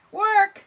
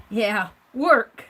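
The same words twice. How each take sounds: First: High, loud exclamation of the word; loud exclaim. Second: Said in the usual way. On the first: Real, not acted.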